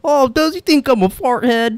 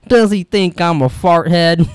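First: High put-on mom voice; mom impression. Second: Lightly acted indignant question, slowed down; mildly put-on movie line; movie character quote. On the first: Imitating Mom in [name]'s story, high mock question. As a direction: mimic a mom's question in a raised pitch. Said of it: "and Mom's like". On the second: Quoting the character from the film, lightly mock-indignant. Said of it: "that's when he goes".

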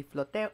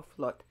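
First: "Flote" said as FLOH-teh; "Flote" with an extra "teh" syllable at the end; two-syllable variant. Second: "Flot" said as one syllable with a short open o; "Flot" with no vowel after the t; one-syllable variant. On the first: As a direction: sound the final e in "Flote". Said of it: "supposed to be Flote or Flot". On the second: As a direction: end "Flot" right on the t. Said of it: "she pronounces it Flot". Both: Shown as a demonstration.

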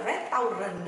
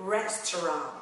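First: "restaurant" read letter by letter as "ret-tao-run"; wrong reading of restaurant. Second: "restaurant" as American "RES-tuh-rahnt", slow and falling; correct restaurant. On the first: Teacher warning learners off a mistake, Vietnamese-style "restaurant". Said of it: "nó không đọc là restaurant đâu". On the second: Teacher modelling the word for learners, American "restaurant". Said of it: "Nó sẽ đọc là restaurant". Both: Shown as a demonstration.

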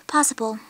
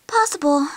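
First: A breathy, voiceless aside; whispered. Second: Said in the usual way. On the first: Acted. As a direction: whisper the word to yourself. Repeats word then whispers it.

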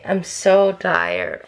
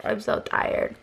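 First: Dragged out very slowly, worn out; tired drawl. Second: Breathed out in a whisper; tired whisper. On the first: Vlogger admitting exhaustion to viewers, slow and drawn. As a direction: let the words sag and stretch. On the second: Vlogger repeating her exhaustion to viewers, whispered. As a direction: let it fade to a weary whisper. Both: Real, not acted.

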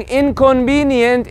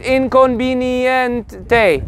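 First: Inconvenient slowly, in English sounds; slow, measured English inconvenient; English version. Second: Inconveniente drawn out with a final "tay"; very slow inconveniente, same syllables plus "tay"; Spanish version. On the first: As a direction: spell out inconvenient syllable by syllable in English. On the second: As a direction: stretch inconveniente evenly to its last syllable. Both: Shown as a demonstration. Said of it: "it's literally the same thing".

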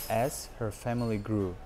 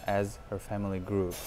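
No difference in how they are said.

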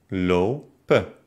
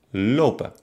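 First: Lo-pen, split by a pause; lopen by syllables. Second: Said in the usual way. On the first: Shown as a demonstration. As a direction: break lopen after the first vowel. (lopen nach Silben getrennt) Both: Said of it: "trenne das Wort dann".

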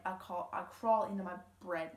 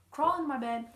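First: Crawl into my "bread", saying "bread" with an R like the loaf instead of bed; tongue slip. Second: "bed" said cleanly with no R, set right after the slip; corrected. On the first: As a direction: stumble and say "bread" where "bed" belongs. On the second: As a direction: fix it firmly, crawl into my "bed". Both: Shown as a demonstration.

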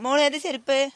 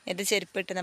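First: High, loud call across to daughter, rising at the end. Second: Said in the usual way. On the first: Real, not acted. Mother calls to her daughter asking which sandals, loudly. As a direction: raise the voice on ഏത് to reach her.

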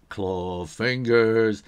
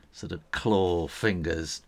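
First: Claw fingers, slow and louder; slow growly claw voice. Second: Said in the usual way. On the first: Shown as a demonstration. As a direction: drag the words out like a clawed monster.

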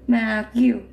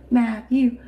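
Both takes have the same delivery.

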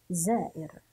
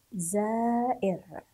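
First: Said in the usual way. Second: زائر drawn out in slow syllables; زائر very slowly, part by part for learners; sounded out slowly. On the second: Shown as a demonstration. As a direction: stretch زائر, long first syllable, then the end. Teacher sounds out word slowly.

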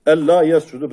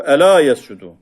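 First: "ella yescudu" with a doubled, held l in "ella"; the common reading, with a held double l in "ella"; our reading. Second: "ela yescudu" with a single light l in "ela"; Kisai's reading with a short, single l in "ela". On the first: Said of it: "Bizim kıraatte". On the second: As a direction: say "ela" short, one l, no doubling. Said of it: "Fi kıraatil kisai tabi". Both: Shown as a demonstration.

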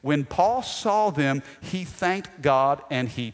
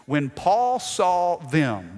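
First: Slow, stress on saw; slow it down and lean on saw; slow emphatic reread. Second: Slow, drawn-out reading; slow deliberate scripture read; slowed for emphasis. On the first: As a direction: dwell on the words for emphasis. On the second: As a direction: linger on each word. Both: Shown as a demonstration. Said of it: "watch this".

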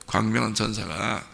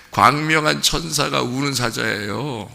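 First: "광명한 천사가" repeated softly, lower and quieter; quiet echo. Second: "광명한" slow and weighted, the rest steady; stress on 광명한. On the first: Pastor repeats the key phrase to the congregation, soft low echo. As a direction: drop the voice and echo "광명한 천사가" to let it sink in. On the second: Pastor drives home that the bright angel is the lion, slow stress on "광명한". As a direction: lean on "광명한" with a slow, deliberate pace. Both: Shown as a demonstration.

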